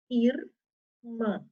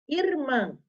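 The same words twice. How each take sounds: First: "Irmã" split ir, mã with a pause between; syllable by syllable. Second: Said in the usual way. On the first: Shown as a demonstration. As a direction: separate "Irmã" into two syllables, R closing the first. ("Irmã" separado em sílabas: ir, mã) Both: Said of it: "Quem é que tá no final da sílaba".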